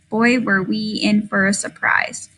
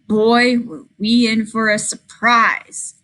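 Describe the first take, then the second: First: It is run together flatly, ignoring the punctuation. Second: It pauses at the comma and sounds expressive.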